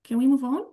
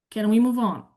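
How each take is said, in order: First: "Can we move on?" rising sharply on the last word; questioning rise at the end. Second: "Can we move on?" falling from "move" to the end; falling question. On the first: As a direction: lift the end into a real question. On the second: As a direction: end the question going down, like a statement. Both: Shown as a demonstration. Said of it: "Number two".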